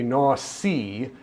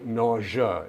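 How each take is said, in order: First: It is pronounced as the spelling suggests. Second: It is pronounced the usual spoken way. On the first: The speaker calls it wrong. "Looks like it should be nausea" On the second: The speaker calls it right. "but it's actually nausea"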